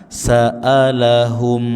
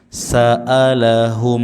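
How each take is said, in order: No difference in how they are said.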